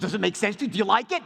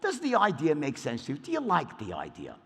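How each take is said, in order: First: It sounds direct, pressing and like a sales push. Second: It sounds casual, hypothetical and unconcerned about money.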